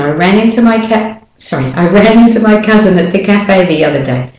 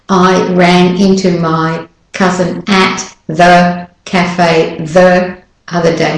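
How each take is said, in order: First: 'At' and 'the' are reduced and run together. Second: 'At' and 'the' are said fully and clearly. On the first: The speaker calls it right. "at and the are de-stressed words. So you just run it all together" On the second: The speaker calls it wrong. "I'm not going to say"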